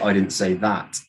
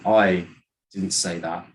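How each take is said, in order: First: The word that carries the main stress. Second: The word I carries the main stress. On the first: Something different was said. "you said something else" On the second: Someone else said it. "then you're saying that someone else did"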